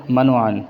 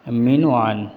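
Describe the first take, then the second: First: منوعان said short and clipped, "manan"; the wrong منوعان, squeezed into "ma-nan"; wrong pronunciation. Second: مینوعان with a long ee after the m, "meenuan"; the right مینوعان, "mee-nu-aan"; correct pronunciation. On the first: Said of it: "یہ غلط ہے". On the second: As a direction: stretch the first vowel of مینوعان. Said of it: "اور صحیح ہے". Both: Shown as a demonstration.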